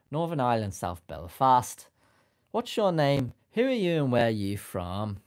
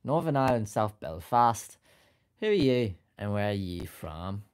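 First: Loud Northern Irish accent, Belfast lilt; hammed-up Northern Irish accent. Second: Second go at a Northern Irish accent. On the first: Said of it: "I think I could do a Northern Irish accent". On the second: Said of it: "butchered your own accent". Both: Shown as a demonstration.

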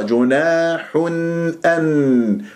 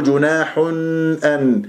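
First: جناح أن recited with the tanween n cleanly released; clear nun. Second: جناح أن with lips still rounded on the n; rounded nun mistake. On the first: Teacher shows how to release it, clear unrounded nun. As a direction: separate the n of جناح from أن. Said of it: "شلون أخلصها". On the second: Teacher imitates the mistake, rounded-lip nun. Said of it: "لا أقول جناح أن". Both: Shown as a demonstration.

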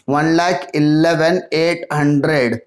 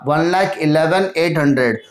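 First: Slow, drawn-out repeat of the total; slow dictation. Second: Said in the usual way. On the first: Real, not acted. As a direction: read the number out slowly for note-takers. Repeats total slowly for writing down.

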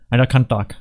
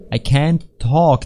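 First: Said in the usual way. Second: "can't talk" stretched slowly, word by word; over-enunciate "can't talk" at half speed; careful pronunciation. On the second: Shown as a demonstration. Player correcting own slurred speech, "can't talk" pronounced slowly. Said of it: "Please pronounce it".

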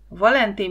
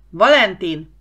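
First: Said in the usual way. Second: Loud, urgent call of the name; sharply louder calling-out; shout into microphone. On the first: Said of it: "Tírosz már nyugtalankodni kezdett". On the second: A narrator's reading. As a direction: shout for a crewmate over the radio. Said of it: "Tírosz belekiáltott a mikrofonba".

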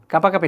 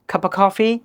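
First: 'কাপা কাপি' with plain k and p for f; no puff of air in 'কাপা কাপি'; wrong unaspirated version. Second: 'cup of coffee' as khuppa khoffee; correct aspirated version. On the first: ('কাপা কাপি' অল্পপ্রাণ ক দিয়ে) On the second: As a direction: puff both k sounds in 'cup of coffee'. ('cup of coffee' মহাপ্রাণ খ দিয়ে) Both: Shown as a demonstration. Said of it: "কাপা কাপি না".

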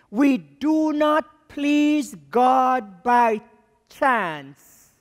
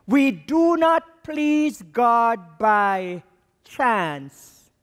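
First: Very slow, every word weighted; slow, deliberate line stressing each word; slow emphatic preaching. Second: Very slow, every word weighted; slow, deliberate line stressing each word; replayed emphatic line. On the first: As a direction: spell it out word by word for the church. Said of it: "Stop. Play". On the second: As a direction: replay it just as slowly and firmly. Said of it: "I'm going to press stop, rewind". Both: Shown as a demonstration.

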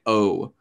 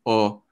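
First: "O" long and rounded, like "oh"; rounded American O. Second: "O" short and open, like "aw". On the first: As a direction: round the lips and lengthen "O". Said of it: "the O where you get a lot of rounding". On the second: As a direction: say "O" with little lip rounding. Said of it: "shorter, more open O". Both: Shown as a demonstration.

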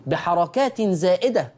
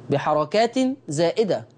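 Both takes have the same delivery.

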